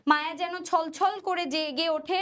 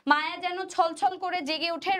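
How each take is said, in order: Both takes have the same delivery.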